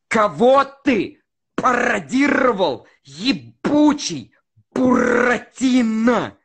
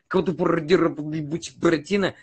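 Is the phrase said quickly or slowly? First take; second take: slowly; quickly. First: The phrase is said slowly with crisp consonants. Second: The phrase is said quickly and less clearly. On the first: The speaker calls it right. "вот так медленно произносишь" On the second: The speaker calls it wrong. "если ты вместо этого произносишь там"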